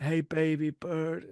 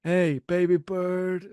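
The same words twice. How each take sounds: First: Put-on slow New York accent. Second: Slow, sneering gangster drawl; Tony Montana impression. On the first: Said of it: "Now I'm doing just a New York accent". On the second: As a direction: lay on the creepy charm, slowly. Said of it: "He sounds like Tony Montana".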